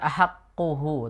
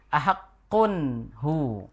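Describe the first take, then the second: First: No n sound is heard before hu. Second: An n sound is heard before hu. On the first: The speaker calls it wrong. "bukan ahakkuhu" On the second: The speaker calls it right. "ada tanwinnya"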